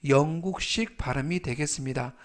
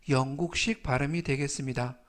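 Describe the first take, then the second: The two takes are said the same way.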